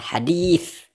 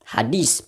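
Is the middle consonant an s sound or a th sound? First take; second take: th sound; s sound. First: The middle consonant is a th sound. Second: The middle consonant is a plain s sound. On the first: The speaker calls it right. "padahal yang benar hadis" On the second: The speaker calls it wrong. "kok dibaca apa ya?"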